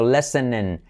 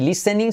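First: The vowels are pronounced closer to an e. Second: The vowels are pronounced as a clear i. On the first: The speaker calls it right. "sino listening. No se escucha ninguna I por ahí. Todo letra I como E" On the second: The speaker calls it wrong. "No listening"

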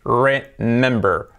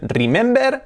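First: The r is pronounced like an English r. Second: The r is pronounced like a Spanish r. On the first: The speaker calls it right. "es remember, remember. Las R es letra clave" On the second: The speaker calls it wrong. "no es remember"

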